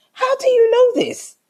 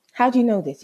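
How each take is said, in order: First: Very high, incredulous challenge; vexed outburst. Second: Firmer, more contained challenge; vexed repeat. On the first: Woman challenging boyfriend's reassurance, vexed outburst. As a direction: fire it back way up high. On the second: Woman pressing boyfriend for an answer, contained vexation. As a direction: repeat it with only a slightly raised pitch. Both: Retold or imitated. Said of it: "I was so vexed".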